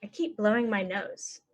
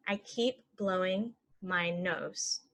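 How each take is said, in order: First: Said in the usual way. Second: Slow and even; slow model. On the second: Shown as a demonstration. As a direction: say it slowly for learners. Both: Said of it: "normal then slow".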